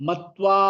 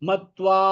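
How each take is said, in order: No difference in how they are said.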